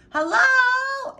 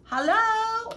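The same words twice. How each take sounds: First: Higher, louder worried shout; urgent high shout. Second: High, loud searching call; worried high call. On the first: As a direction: shout into the rubble. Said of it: "Abel shouted". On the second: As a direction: call out for the missing neighbor. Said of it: "Abel called". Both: A narrator's reading.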